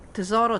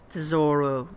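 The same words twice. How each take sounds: First: It is said with an Italian pronunciation. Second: It is said with a non-Italian, English-like pronunciation. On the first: The speaker calls it right. "I'm going to pronounce it Italian style" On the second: The speaker calls it wrong. "not tesoro, because it sounds ridiculous to my ears"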